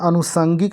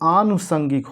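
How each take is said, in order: First: The word begins with a short a vowel. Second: The word begins with a long aa vowel. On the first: The speaker calls it wrong. "ये अनुषंगिक न होकर के" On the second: The speaker calls it right. "आनुषंगिक होता है, अ लगा होता है"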